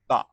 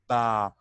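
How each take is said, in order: First: The vowel is short and clipped. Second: The vowel is held long. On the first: The vowel is not written as a letter. "We just pronounce it as short vowel, only ba" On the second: The vowel is written as a letter. "so I'll pronounce it ba, long"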